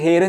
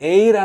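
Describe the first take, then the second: First: The word begins with an audible h sound. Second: The word begins directly with a vowel sound. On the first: The speaker calls it wrong. "హెయిర్ అని చెప్పి చెప్పం" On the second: The speaker calls it right. "An ఎయిర్ అంటాం"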